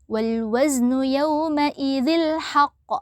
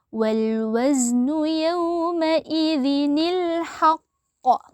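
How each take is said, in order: First: The words join directly without an inserted 'ni' sound. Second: A 'ni' sound is inserted to join the words. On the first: The speaker calls it wrong. "Jadi tidak dibaca" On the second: The speaker calls it right. "Jadi menjadi"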